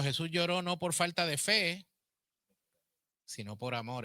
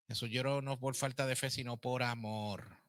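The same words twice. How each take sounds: First: Loud and high on "Jesús lloró no por falta de fe", dropping back on "sino por amor"; emphatic preaching. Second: Said in the usual way. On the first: Acted. Teacher stressing the point to her class, loud and high. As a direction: proclaim it to the class. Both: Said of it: "No, no es falta de fe".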